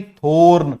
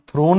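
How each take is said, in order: First: थोर्न with the vowel before r, like thorn; correct pronunciation. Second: थ्रोन with the r right after th, throne-like; wrong pronunciation. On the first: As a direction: say the right form थोर्न as thorn. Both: Shown as a demonstration. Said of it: "थ्रोन नहीं".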